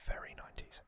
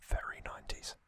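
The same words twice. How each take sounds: The two takes are said the same way.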